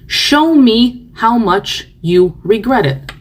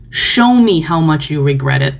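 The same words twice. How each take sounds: First: Slow, emphatic repeat. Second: Said in the usual way. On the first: Real, not acted. Repeating the demand slowly to the remorseful. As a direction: show drawn out slowly, falling at the end.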